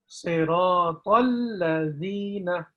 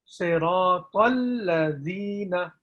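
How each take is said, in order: Both takes have the same delivery.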